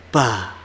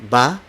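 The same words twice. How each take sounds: First: "ba" with a puff of air after B; aspirated B. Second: "ba" with no puff of air after B; unaspirated B. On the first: Teacher shows what to avoid, breathy "ba". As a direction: push air out on the B of "ba". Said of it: "not ba". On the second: Teacher repeats for learners, "ba" without aspiration. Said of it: "Again, ba, not ba". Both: Shown as a demonstration.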